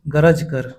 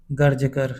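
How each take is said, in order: First: Said in the usual way. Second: गर्ज कर with r joined straight to j; गर्ज कर with half r; reph र. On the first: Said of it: "गरज कर आएगा". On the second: Shown as a demonstration. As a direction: say गर्ज as garj, no vowel after r. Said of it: "गर्ज कर नहीं आएगा".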